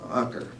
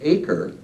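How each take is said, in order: First: The name is said the local way. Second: The name is said the usual English way. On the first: This is how the local guide says it. "our guy pronounced it Aker" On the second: This is how speakers at home say it. "you and I pronounce it acre"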